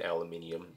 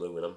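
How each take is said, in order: First: The word is said with five syllables. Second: The word is said with four syllables. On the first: The speaker calls it right. "I'm saying aluminium the correct way" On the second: The speaker calls it wrong. "instead of aluminum"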